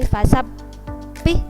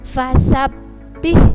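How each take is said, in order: First: The doubled b is held out for too long. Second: The doubled b is pressed briefly, not held. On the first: The speaker calls it wrong. "ndak boleh fasabbih" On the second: The speaker calls it right. "ditekan aja"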